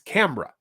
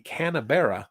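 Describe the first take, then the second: First: The first syllable ends with an m sound. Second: The first syllable ends with an n sound. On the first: This is how locals say it. "if you live in Australia, it's ... they made an M in there somehow" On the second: This follows the spelling. "if you pronounce the capital of Australia, it would be"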